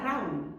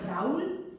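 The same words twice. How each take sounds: First: "Raúl" as one syllable, RAUL; diphthong, stress on A. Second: "Raúl" drawn out as ra-ÚL; hiatus, stress on U. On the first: Teacher shows how it would sound unaccented, stress on A. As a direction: let the A carry "Raúl", the U gliding after it. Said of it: "porque si no sonaría". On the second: Teacher shows how the accented name sounds, stress on U. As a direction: split "Raúl" in two and stress the U. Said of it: "Entonces suena". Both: Shown as a demonstration.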